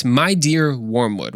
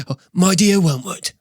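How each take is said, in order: First: Said in the usual way. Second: High, put-on British demon voice; Screwtape. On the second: Shown as a demonstration. Experienced demon opens a letter to his trainee, put-on character voice. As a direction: voice a senior demon greeting his pupil. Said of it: "that's how he would sound like".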